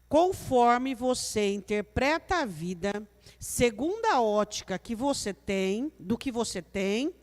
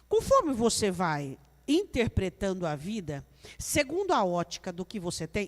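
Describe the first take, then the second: First: It is said very slowly. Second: It is said at normal speed.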